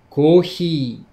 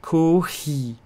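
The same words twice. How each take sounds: First: Kohi said slowly with a falling tone; kohi, clear syllables ko-hi, falling; Japanese pronunciation. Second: Kohi repeated after the teacher, falling; repeating pronunciation. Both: Shown as a demonstration. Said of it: "Et tu le prononces comment".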